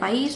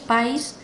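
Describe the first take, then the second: First: The stress is on the second syllable. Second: The stress is on the first syllable. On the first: "el caso de país" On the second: "se pronuncia también allí"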